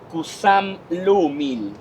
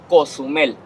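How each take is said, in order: First: The name is said in its original Mayan form. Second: The name is said in its simplified Spanish form. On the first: This is the name's original form. "The original pronunciation" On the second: This is an easier, adapted form. "They changed it to"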